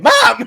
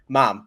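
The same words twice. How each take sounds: First: It is shouted in a frightened, panicked voice. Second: It is said in a calm, normal voice.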